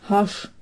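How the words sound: Palatinate dialect, ending in a sch sound.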